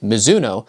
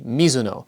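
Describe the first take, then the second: First: The name is said with an American pronunciation. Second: The name is said with a Japanese pronunciation. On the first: This is how many people in the US say it. "the Americanized version of the name" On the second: This is how the name is said in its home country. "how you pronounce the brand in Japan"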